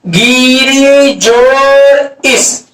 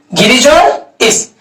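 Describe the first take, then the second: First: गिरी जोड़ इस drawn out word by word; very slow dictation. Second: Said in the usual way. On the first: Shown as a demonstration. Teacher dictating the example very slowly to students. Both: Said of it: "आपको example कहेगा".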